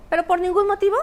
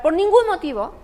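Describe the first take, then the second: First: 'ningún motivo' pushed up high and louder; stress on ningún. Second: Said in the usual way. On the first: Shown as a demonstration. Explaining forbidden family topics, 'ningún' stressed high. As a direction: lean hard on 'ningún motivo'.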